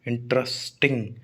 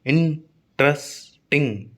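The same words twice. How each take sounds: First: Said in the usual way. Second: "इंटरेस्टिंग" as इन, ट्रस, टिंग with pauses; split into syllables. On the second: Shown as a demonstration. Teacher counting three syllables, "इंटरेस्टिंग" broken into three. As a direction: say "इंटरेस्टिंग" very slowly in three separate beats. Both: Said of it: "तीन syllable".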